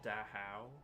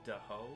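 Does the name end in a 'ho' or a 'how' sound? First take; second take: how; ho. First: The name ends in a 'how' sound. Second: The name ends in a plain 'ho' sound. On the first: The speaker calls it wrong. "not Dahao" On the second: The speaker calls it right. "I like to pronounce it Daho"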